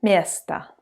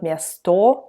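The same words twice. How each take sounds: First: "место" as MYES-ta, falling on a reduced A; final O as A. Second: "место" slowly as myes-TO, with a clear O, rising; full final O. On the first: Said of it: "like to say it as A". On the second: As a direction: wrongly sound a full O at the end of "место". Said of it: "not место". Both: Shown as a demonstration.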